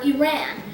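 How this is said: It is said in an American-style pronunciation. The speaker calls it wrong. "some people, especially in America, pronounce it as"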